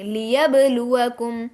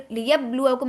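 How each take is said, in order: First: لیبلوکم slowly with the ب bounced; qalqala on ba. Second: لیبلوکم read flat, ب without bounce; wrong flat reading. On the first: Teacher showing students the right way to read لیبلوکم. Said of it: "آواز کو اس طریقے سے ہلائیں گے". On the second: Teacher showing students the wrong way to read لیبلوکم. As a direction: say لیبلوکم plainly, no qalqala. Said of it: "لیبلوکم نہیں پڑھیں گے". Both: Shown as a demonstration.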